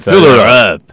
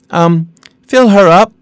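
First: It is said in a gruff, manly way. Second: It is said in a soft, polite way. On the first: The speaker calls it right. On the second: The speaker calls it wrong. "You cannot say, excuse me"

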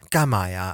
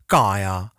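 First: It is said in a soft Shanghainese style. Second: It is said in a thick Dongbei style. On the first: The speaker sounds gentler and less aggressive. "instead of saying" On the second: The speaker sounds more masculine and aggressive. "which is like a really thick, like Dongbei"

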